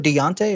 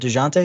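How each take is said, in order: First: The name is said without a J sound. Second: The name is said with a J sound. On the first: "so you go Deonte" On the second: "I pronounced the J"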